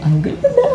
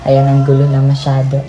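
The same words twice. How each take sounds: First: High squealing laugh through words. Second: Said in the usual way. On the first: Real, not acted. Repeats with laugh.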